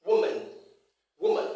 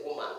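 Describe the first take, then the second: First: WOMAN with a schwa in the last syllable; woman with a weak, reduced ending; correct pronunciation. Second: WOMAN with a full A in -man; woman ending like the word man; wrong pronunciation. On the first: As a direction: say woman as WOO-mun, ending unstressed. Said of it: "It has the schwa sound". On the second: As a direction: say woman as woo-MAN, vowel unreduced. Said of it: "which is wrong". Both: Shown as a demonstration.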